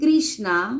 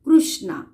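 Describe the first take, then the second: First: It is pronounced the Hindi way. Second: It is pronounced the Marathi way. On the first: "Hindi में पढ़ेंगे इसे हम" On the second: "Marathi में पढ़ेंगे इसे हम"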